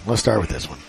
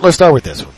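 First: Quiet throwaway repeat; low muttered repeat. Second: Said in the usual way. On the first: Acted. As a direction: drop it low and soft, almost under breath.

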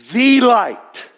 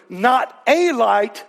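First: "the" said as a high, loud "thee"; stress on THE. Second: Long, leaned-on "a" in "not a light"; stress on A. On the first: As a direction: punch "the" as the one and only. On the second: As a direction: draw out "a" slowly to rule it out. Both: Shown as a demonstration. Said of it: "Now remember, not a light, the light".

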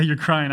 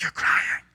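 First: Said in the usual way. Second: Whispered, no voice. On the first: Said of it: "I didn't really say". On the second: Retold or imitated. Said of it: "I didn't really say, "You're crying".

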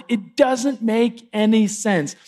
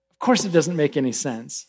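First: Slow, bewildered acted protest; dismayed frog. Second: Low, soft, resigned answer; matter-of-fact scorpion. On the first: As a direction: draw it out in mild dismay. Stung frog protests to the scorpion. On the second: Acted. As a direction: concede it quietly, pitch dropped. Scorpion calmly answers the drowning frog.

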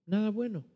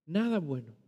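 First: "Nada" stressed higher with a falling tune; "Nada" punched high, then down; emphatic. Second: Said in the usual way. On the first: Shown as a demonstration. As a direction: hit "Nada bueno" hard and let it fall. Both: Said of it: "qué espero yo de una persona muerta".

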